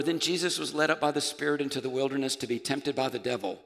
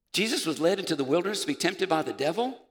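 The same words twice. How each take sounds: First: Said in the usual way. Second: Puzzled, rising question; incredulous. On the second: Acted. Preacher re-reading the verse as if shocked, incredulous rising question. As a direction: question the verse in mock disbelief.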